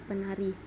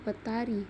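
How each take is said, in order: First: The t merges into an n sound. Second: The root keeps its t sound after the prefix. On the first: The speaker calls it right. "tapi dibaca penari" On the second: The speaker calls it wrong. "tidak dibaca petari"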